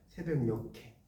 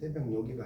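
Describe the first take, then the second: First: The last syllable starts with an aspirated k sound. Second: The last syllable starts with a soft g sound. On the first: The speaker calls it right. "요게 키읔이 올라가잖아요" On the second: The speaker calls it wrong. "새벽녘에가 아니라"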